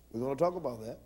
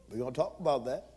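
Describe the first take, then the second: No difference in how they are said.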